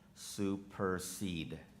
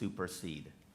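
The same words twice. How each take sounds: First: The word is said slowly and drawn out. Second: The word is said at normal speed.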